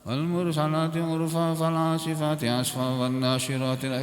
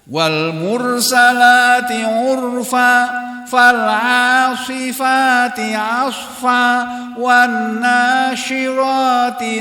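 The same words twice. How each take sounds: First: It is said casually with loosely articulated vowels. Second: It is said carefully with each vowel clearly opened. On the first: The recitation is treated carelessly. The speaker calls it wrong. "kan enggak terbuka ini. Jangan begitu" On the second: The recitation is treated seriously. The speaker calls it right. "Dibacanya harus benar, harus serius"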